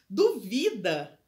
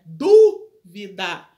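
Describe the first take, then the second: First: The stress is on the second syllable. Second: The stress is on the first syllable. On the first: It is the verb meaning someone doubts. "Duvida não tem acento" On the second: It is the noun meaning a doubt. "Dúvida é no du"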